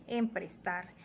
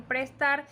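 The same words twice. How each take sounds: First: Emprestar with em- added. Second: Said in the usual way. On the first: Shown as a demonstration. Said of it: "dicen emprestar". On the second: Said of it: "en vez de decir prestar".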